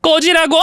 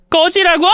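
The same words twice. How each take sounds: First: Furious shout. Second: A high, sharp outraged cry; furious shout. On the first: Wife orders husband out, furious shout. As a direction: bark him out the door. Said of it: "큰 소리를 치며". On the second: Wife snaps at her husband, furious shout. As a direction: throw the question back at him in fury. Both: Acted.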